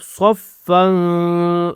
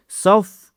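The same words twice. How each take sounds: First: صفًا ending in a long hum through the nose; nasal ghunnah. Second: صف stopped on "f", without nasal ending; short "saf". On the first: Teacher showing where the sound exits, nasal held صفًا. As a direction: let the "n" of صفًا ring in the nose. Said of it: "ناک سے آواز نکلی آپ کی". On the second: Teacher isolating the first syllable, short closed صف. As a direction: cut صف off at the "f". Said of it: "یہاں پہ آپ نے". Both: Shown as a demonstration.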